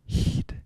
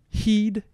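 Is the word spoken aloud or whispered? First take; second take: whispered; aloud. First: It is whispered without any voicing. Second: It is spoken in a normal voice. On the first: "I'm going to whisper them" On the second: "So the words are"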